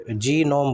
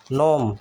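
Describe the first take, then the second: First: "नोम" with a separate "जी" in front; G sounded. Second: "नोम" starting straight on N; silent G. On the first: Teacher shows the mistake, "जी नोम" with G sounded. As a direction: wrongly voice the silent G before "नोम". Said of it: "बोलना गलत है". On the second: Teacher models the word for learners, "नोम" with silent G. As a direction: drop the G and say "नोम". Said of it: "नोम में भी जी silent होता है". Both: Shown as a demonstration.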